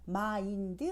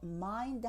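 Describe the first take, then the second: First: It is said with extra vowel syllables. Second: It is said as a single syllable. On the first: The speaker calls it wrong. "아니고" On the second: The speaker calls it right. "하나로"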